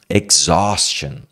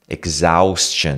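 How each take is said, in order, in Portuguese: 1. A palavra é dita com um sopro de ar. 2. A palavra é dita sem um sopro de ar. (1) "Tem um pouco de ar que sai aqui para fora" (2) "Você não fala exhaustion. Exhaustion, não"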